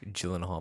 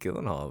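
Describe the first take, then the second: First: The name starts with a soft J sound. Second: The name starts with a hard G sound. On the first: The speaker calls it right. "It's probably J- Gyllenhaal" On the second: The speaker calls it wrong. "I said it with a hard G"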